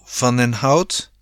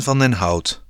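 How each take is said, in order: First: Slow, rising questioning echo; slow and unconvinced, lifting at the end; doubtful. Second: Said in the usual way. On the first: A narrator's reading. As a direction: echo it back as a sceptical question. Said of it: "twijfelde Rob".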